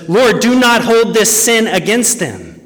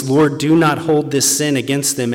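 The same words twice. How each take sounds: First: Higher, louder preacher's plea; impassioned preaching. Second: Said in the usual way. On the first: Acted. Preacher voicing Stephen's prayer to the congregation, impassioned. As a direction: proclaim Stephen's prayer to the church. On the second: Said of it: "he cried out with a loud voice".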